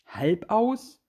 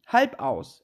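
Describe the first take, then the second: First: "Halb aus?" repeated with a rising question tune; incredulous echo. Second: "Halb aus" said high and firm, falling at the end; falling reply. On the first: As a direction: echo the name, puzzled. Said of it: "Was du sagst". (verwundert nachgefragt) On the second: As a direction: answer as if the name were obvious. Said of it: "antwortete die Katze". (knapp und bestimmt) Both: A narrator's reading.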